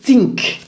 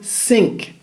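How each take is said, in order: First: It begins with a sharp t sound. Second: It begins with a hissing s sound. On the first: "ou un T" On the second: "Ils remplacent le T H avec un S"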